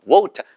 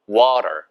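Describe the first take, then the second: First: It is said in a British accent. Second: It is said in an American accent. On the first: "영국식 발음은 water 이렇게 발음하시면 돼요" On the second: "미국식 발음은 water"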